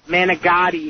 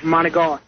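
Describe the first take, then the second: First: It is said with an American pronunciation. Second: It is said with an Italian-style pronunciation. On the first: The speaker calls it wrong. "when people say manigotti" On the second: The speaker calls it right. "instead of"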